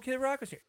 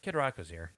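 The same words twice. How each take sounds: First: The speaker sounds excited and impressed. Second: The speaker sounds flat and unimpressed. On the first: Seeing a celebrity nearby is a big deal. The speaker calls it wrong. "I think the tone's wrong" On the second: Seeing a celebrity nearby is ordinary. The speaker calls it right. "We're callous to it"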